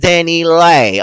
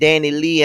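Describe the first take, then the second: First: The last syllable sounds like 'lay'. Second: The last syllable sounds like 'lee'. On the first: The speaker calls it right. "this is Danny Lay" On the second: The speaker calls it wrong. "I've been saying this girl name wrong"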